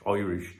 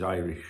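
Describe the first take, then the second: First: "Irish" said as "Oirish", mock Irish; half-hearted Irish brogue; attempted Irish accent. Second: Said in the usual way. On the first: Shown as a demonstration. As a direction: have a poor go at an Irish accent on "Irish". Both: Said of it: "I can't do his accent".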